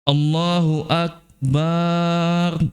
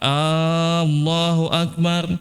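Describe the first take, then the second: First: The a after b is drawn out. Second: The first a is drawn out. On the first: Allah is a drum. "banyak yang dipanjang bukan hamzah" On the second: Is Allah the greatest? "kalau A banyak panjang"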